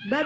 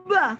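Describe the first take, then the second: First: Said in the usual way. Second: "Ba" with the lips held shut first; overdone held onset. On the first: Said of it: "Ba bisa aja ba". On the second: Shown as a demonstration. Teacher shows how the easy letter isn't said, exaggerated held consonant. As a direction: hum on the closed b before releasing "Ba". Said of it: "kan ba enggak gitu".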